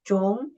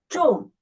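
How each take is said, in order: First: The pitch rises from middle to high. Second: The pitch falls sharply from high to low. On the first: "the second tone, raise up" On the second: "read it from the highest down to the lowest"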